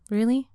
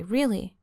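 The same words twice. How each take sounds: First: "Really?" lifted higher into a questioning rise; surprised "Really?" with upward lift; rising "Really?". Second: "really." said with a firm falling tune. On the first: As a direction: ask "Really?" hopefully, tune climbing. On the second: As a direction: close "really." downward as a statement. Said as sincere statement. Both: Acted.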